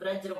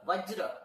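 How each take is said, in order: First: The word begins with a B sound. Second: The word begins with a V sound. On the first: The speaker calls it wrong. "वज्र को तुम तुम कुछ ब्रज्र बोल रहे हो" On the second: The speaker calls it right. "वज्र बोलना है"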